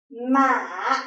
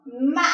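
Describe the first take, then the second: First: "Ma" dipping down, then back up; low falling-rising tone. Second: "Ma" catches mid-vowel and climbs high; high broken rising tone. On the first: Teacher comparing two tones, this the low dipping one. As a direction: sink slowly through "Ma" and lift the end. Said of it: "compared to this tone". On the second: Teacher comparing two tones, this the higher broken rise. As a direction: break "Ma" and end it much higher. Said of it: "this tone is much higher". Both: Shown as a demonstration.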